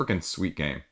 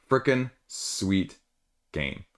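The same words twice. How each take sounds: First: Said in the usual way. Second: FREAKING SWEET GAME drawn out word by word; slow emphatic repeat. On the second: Real, not acted. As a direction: slowly savor each word of "Freaking sweet game", pausing before "game".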